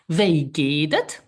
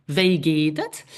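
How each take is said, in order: First: Slow, careful "Wie geht es?" with a rising end; slow model phrase. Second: Said in the usual way. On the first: Shown as a demonstration. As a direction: spell out "Wie geht es?" slowly for learners. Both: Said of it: "This is".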